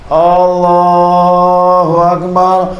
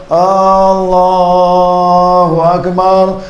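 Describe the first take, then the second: Both takes have the same delivery.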